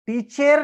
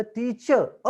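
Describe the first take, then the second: First: टीचर read with a full ई sound at the end, high and firm; wrong vowel ending. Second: टीचर अ ending on a short अ sound; correct schwa ending. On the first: Teacher showing students the wrong way to say टीचर. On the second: Teacher showing students the right way to say टीचर अ. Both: Shown as a demonstration. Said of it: "पण ईचा उच्चार".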